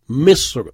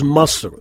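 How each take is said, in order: First: The first vowel sounds like 'i'. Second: The first vowel sounds like 'a'. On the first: This is the official way to say it. "il faut respecter la prononciation officielle" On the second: This is the common everyday way Arabs say it. "souvent, les Arabes disent Masr"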